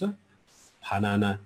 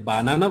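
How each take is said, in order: First: The word starts with a breathy ph sound. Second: The word starts with a plain b sound. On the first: The speaker calls it right. "उच्चारण गर्दाखेरि अलिकति फा आउँछ" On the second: The speaker calls it wrong. "बनानालाई बानाना भन्छ उनीहरूले, सरी"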